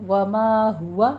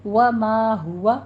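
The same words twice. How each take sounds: First: وما ہوا slowly with ma stretched and ہوا short; long ma. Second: وما ہوا very slowly with the long ma recited. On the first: Teacher modelling the madd in وما ہوا. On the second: Teacher reciting وما ہوا the proper way. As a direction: chant وما ہوا holding the ma. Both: Shown as a demonstration. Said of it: "ما کو لمبا کرنا ہے".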